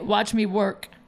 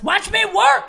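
First: It is said in the speaker's own voice. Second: It is said in a put-on imitated voice.

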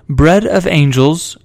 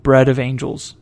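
First: It is said in a put-on British accent. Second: It is said in his normal American accent.

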